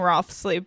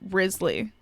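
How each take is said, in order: First: The name is said with a 'th' sound. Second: The name is said like 'Riz-lee' without 'th'. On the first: The speaker calls it wrong. "I keep saying Rothsley" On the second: The speaker calls it right. "the correct pronunciation because it's a French like old English name is"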